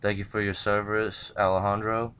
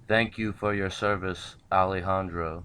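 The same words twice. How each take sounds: First: It is said at normal speed. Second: It is said more slowly.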